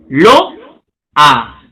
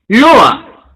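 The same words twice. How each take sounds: First: Lo-a in two separate beats, lower; syllabified. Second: Said in the usual way. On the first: Shown as a demonstration. Teacher separating the vowels for students, two beats. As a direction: break Lo-a apart at the vowels. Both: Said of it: "el silabeo".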